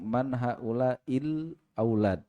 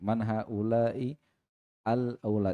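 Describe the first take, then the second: First: The article is joined smoothly onto the previous word. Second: The article is separated with its own glottal start. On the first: The speaker calls it right. "Kalau disambung" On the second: The speaker calls it wrong. "Itu kan diputus itu"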